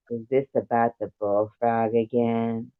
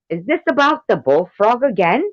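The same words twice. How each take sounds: First: Understated sultry read; sexy. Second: High, loud mock English accent; hammed-up English voice, pitched high. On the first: Acted. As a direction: play it sexy, without pushing. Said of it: "gonna do you just as sexy". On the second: Reading Tank's comment aloud, in an English accent. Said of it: "do you as a English person".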